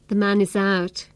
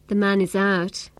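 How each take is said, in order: No difference in how they are said.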